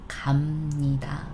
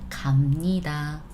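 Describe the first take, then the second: The two takes are said the same way.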